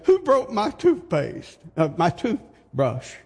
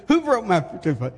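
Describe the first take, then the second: First: High, baffled cry of who broke it; puzzled husband. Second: Said in the usual way. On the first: Retold or imitated. A husband calling from the bathroom, baffled and high. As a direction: play the bewildered husband, voice jumping up. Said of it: "and he said". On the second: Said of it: "He came out and said".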